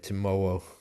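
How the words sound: The R sounds like a slight W. "with the R becoming a slight W"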